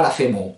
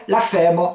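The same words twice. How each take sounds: First: Femo stressed on the last syllable; accent mal placé. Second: Femme said FÈ-mo, weight on FÈ; paroxyton. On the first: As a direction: land heavily on MO: feMO. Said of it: "et pas la femo". (« femo » accentué sur MO) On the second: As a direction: stress FÈ and let the o fall. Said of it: "ça va être un paroxyton". (« femme » dit FÈmo, accent sur FÈ) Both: Shown as a demonstration.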